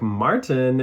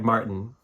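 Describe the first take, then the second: First: The T in the middle is fully pronounced. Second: The T in the middle is a glottal stop. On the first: "in my head" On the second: "I'm going to be like Martin. Like, you don't, you do not say the t- T's"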